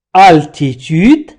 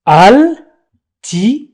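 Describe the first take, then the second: First: Said in the usual way. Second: Altitude slowly broken into al, ti, tu, de; syllable by syllable. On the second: Shown as a demonstration. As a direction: sound out altitude with a pause after each syllable. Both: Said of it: "La première syllabe".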